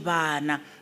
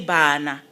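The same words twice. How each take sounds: First: The b is a fricative with lips not touching. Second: The b is a full stop with closed lips. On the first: The speaker calls it right. "It's a fricative. We say bana. The lips do not touch" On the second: The speaker calls it wrong. "we don't say bana"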